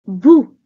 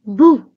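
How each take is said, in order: First: Louder squealing boo; loud squealed boo. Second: A mock boo, louder; squeaky boo. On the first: Acted. Monster trying harder to scare Jeff, squealed boo. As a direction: give it everything to scare. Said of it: "the monster squealed". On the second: Baby monster trying to scare Jeff, squeaky boo. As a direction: try to scare, comes out small. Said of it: "the creature squeaked".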